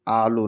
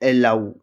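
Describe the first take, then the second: First: The word ends with an 'oh' sound. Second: The word ends with an 'ow' sound. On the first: The speaker calls it wrong. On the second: The speaker calls it right.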